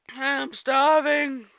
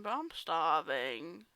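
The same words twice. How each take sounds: First: Stretched-out, loud, high cry of hunger; loud starving wail. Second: Slow starving moan. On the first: Fluttershy confessing to Discord she's starving, loud drawn-out wail. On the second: Fluttershy admitting hunger to Discord, slow drawn-out moan. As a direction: drag out I'm starving slowly. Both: Acted. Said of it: "I'll redo that".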